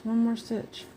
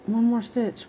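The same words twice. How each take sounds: First: High voice, softer pleading repeat. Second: High voice, imitating a pleading child. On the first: Retold or imitated. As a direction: repeat it higher and quieter, wheedling. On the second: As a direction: mimic a higher, wheedling voice. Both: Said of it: "It's like".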